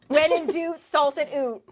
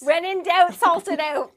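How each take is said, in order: First: The last word is said as 'oot'. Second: The last word is said as a mild 'out'. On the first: "guaranteed people are hearing oot" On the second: "that really captures the Canadian accent"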